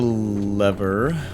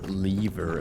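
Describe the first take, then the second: First: The word is said the non-British way. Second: The word is said the British way.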